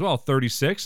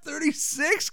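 First: Said in the usual way. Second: Very high, rising question; mock flattered disbelief. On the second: Frasier echoing the saleswoman's guess, mock disbelief. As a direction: echo it in hammed-up amazement.

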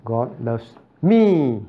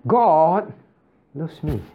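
First: Slow, even God loves me with weight on me; stretched-out God loves me; stress shift. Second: God punched high, rest falls; stress on God. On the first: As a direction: drag out God loves me, landing on me. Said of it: "Now, is that the same as". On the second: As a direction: lift God high, let loves me fall away. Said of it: "Is it the same as". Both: Shown as a demonstration.

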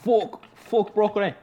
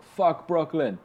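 First: Put-on much higher, slow, botched accent; exaggerated, worse attempt at his accent; Masai Ujiri. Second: Higher-pitched, poorly imitated accent; rough impression of his accent; Masai Ujiri. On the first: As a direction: overdo a badly faked accent. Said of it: "No, that was worse". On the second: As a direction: attempt an accent, not very well. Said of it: "your Conor McGregor accent sounds a lot like your Masai Ujiri".

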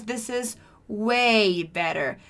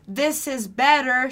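First: "way" drawn out slowly before "better"; emphasis on way better. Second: Said in the usual way. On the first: Shown as a demonstration. Teacher shows learners how to emphasize better, slow stretched "way". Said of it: "one way you can emphasize the word better". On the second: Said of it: "Instead of saying, "This is better".

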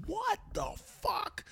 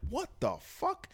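First: High, slow, stunned disbelief; mortified what the fuck. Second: Shocked disbelief. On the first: Girlfriend on speakerphone, mortified, in stunned high disbelief. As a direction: drag it out in shocked horror. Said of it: "Megan is, like, mortified". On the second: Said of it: "So I'm hearing all of this". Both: Retold or imitated.

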